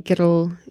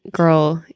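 First: Put-on "girl" in two syllables, "gih-dul"; tapped-R Scottish "girl"; Scottish pronunciation. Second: Said in the usual way. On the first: Shown as a demonstration. Comparing two ways, Scottish two-syllable "girl". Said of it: "the best Scottish word". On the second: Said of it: "I would say girl".

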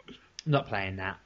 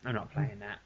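First: Slow, hushed, NOT pressed; quietly stressing not in "I'm not playing that"; muttered refusal. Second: Near-silent, weight on playing; barely voiced, stressing playing in "I'm not playing that"; repeated mutter. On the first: Dad to himself about daughter, slow quiet refusal. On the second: Dad repeating refusal to himself, almost silent. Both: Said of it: "I looked around and I thought".

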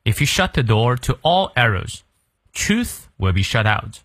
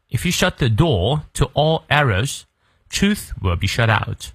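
First: Slow American English with r sounded in "door"; careful American reading, pronounce the r in "door"; American-style model reading. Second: Slow British English, r dropped in "door"; British model reading, no r after the vowel in "door"; British pronunciation. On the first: Teacher repeating the sentence for learners, slow American pronunciation. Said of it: "再来一遍". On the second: Teacher showing the British version to learners, non-rhotic British accent. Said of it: "如果是英式发音呢， 元音后的而不念". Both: Shown as a demonstration.

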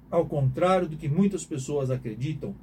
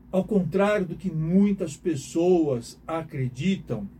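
First: Said in the usual way. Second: Slow emphasis. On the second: Shown as a demonstration.

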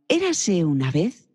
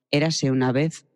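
First: Higher, slower, hopeful opening; eager storytelling. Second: Low flat opening. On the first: Teacher showing how to start a children's story. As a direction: open the tale with eager anticipation. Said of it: "Hay que empezar en agudo y con ilusión". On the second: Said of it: "le empiezo un cuento diciendo". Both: Shown as a demonstration.

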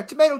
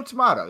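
First: "tomato" said tuh-MAY-toe, A as in day; "tomato" the American way, MAY in the middle; tomato with a long A. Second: "tomato" said tuh-MAH-toe, A as in father; "tomato" the British way, MAH in the middle; tomato with a broad A. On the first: Joking that either way works, tomato said tuh-MAY-toe. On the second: Answering the first version, tomato said tuh-MAH-toe. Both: Shown as a demonstration. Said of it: "put the emphasis on the wrong syllable".

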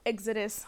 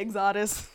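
First: Said in the usual way. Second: "Exodus" with the stress slipped to the second syllable. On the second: Real, not acted. Host catching a slip before Bible reading, misstressed "Exodus". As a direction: say "Exodus" as ex-AW-dus, amused. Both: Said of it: "I'm about to say Exodus".

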